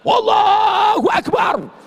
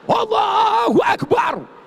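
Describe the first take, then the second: Both takes have the same delivery.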